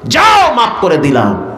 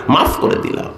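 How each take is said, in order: First: Ringing burst on যাও, then falling; proclaimed pardon. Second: Softer, half-whispered repeat; hushed pardon. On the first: God tells the angels to forgive, ringing proclamation. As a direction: proclaim it with a long, high যাও. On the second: God forgives the hopeful servant, hushed delivery. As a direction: let the words drop to a near whisper. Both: Acted.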